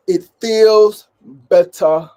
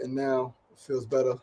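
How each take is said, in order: First: Loud, clipped British "It feels better," with a higher pitch; UK accent. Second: Said in the usual way. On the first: Shown as a demonstration. Trying out a British accent on his own line, in a UK accent. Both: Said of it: "my U K accent".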